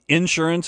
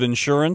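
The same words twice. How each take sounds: First: The stress is on the first syllable. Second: The stress is on the second syllable. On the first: This is how it is said in the South. "you put the emphasis on the first syllable" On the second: This is how it is said outside the South. "as opposed to the second one"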